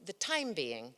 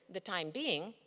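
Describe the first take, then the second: First: "the TIME being", being falls away after it; stress on TIME. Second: "the time BEING", weight falling on being; stress on BEING. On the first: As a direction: stress the first word, TIME. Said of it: "put the emphasis on the first word". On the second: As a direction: stress the second word, BEING. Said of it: "put the emphasis on the second word". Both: Shown as a demonstration.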